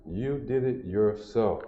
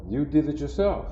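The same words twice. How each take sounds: First: Slow, quieter, leaning on "did" in You did it yourself; slow down and press "did"; stress on did. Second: Said in the usual way. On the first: Shown as a demonstration. Teacher driving the point home to students, slow with did stressed.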